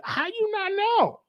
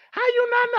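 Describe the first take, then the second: First: Mock disbelief. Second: Mock disbelief, pushier. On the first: Mocking a clueless partner. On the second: Repeats question, pushing harder.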